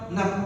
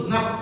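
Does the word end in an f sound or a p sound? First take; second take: p; p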